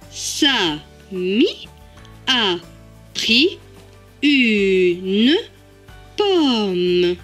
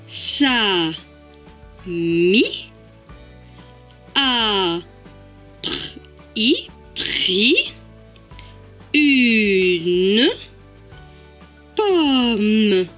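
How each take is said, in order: First: It is read more quickly, in syllables. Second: It is read very slowly, sound by sound. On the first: "Plus rapidement" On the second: "tout doucement"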